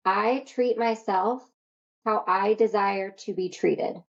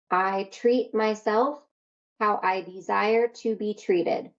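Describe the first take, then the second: First: Slow affirmation. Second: Slow, sincere repeated affirmation. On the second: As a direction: say it slowly like a vow. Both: Shown as a demonstration. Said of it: "this is your promise to yourself".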